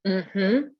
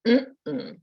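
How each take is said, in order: First: Mm-HMM, rising at the end; "mm-hmm" lifted on the second syllable; last-syllable stress. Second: MM-mm, higher on the first syllable, dropping; "mm-mm" punched at the start; first-syllable stress. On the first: Teacher contrasts a yes, mm-HMM rising on the last. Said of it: "emphasis is on the last syllable". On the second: Teacher contrasts a no, MM-mm stressed first. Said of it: "emphasis on the first syllable". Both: Shown as a demonstration.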